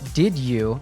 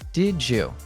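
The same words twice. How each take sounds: First: The d and y are said as separate sounds. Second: The d and y merge into a j sound.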